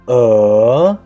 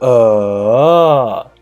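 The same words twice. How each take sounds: First: The pitch rises from mid to high. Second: The pitch dips down and then rises. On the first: "The second tone is uh" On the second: "The third tone, it is uh"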